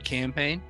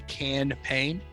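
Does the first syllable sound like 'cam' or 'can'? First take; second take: cam; can. First: The first syllable sounds like 'cam'. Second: The first syllable sounds like 'can'. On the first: It is an ordinary promotion. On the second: It is a promotion built around beer cans.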